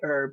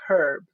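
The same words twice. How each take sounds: First: American accent, the H is silent. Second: British accent, the H is pronounced.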